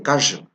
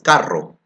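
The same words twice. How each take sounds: First: The R buzzes like a z sound. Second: The R is a strong trill. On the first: This marks the speaker as having an Andean accent. "they say carro" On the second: This is the standard Spanish pronunciation. "if I want to say car in Spanish, it's carro"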